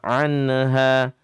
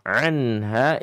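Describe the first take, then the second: First: The n has a slight bouncing release. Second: The n is held steady without bouncing. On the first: The speaker calls it wrong. "dan jangan anha" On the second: The speaker calls it right. "Anha idhar halqi"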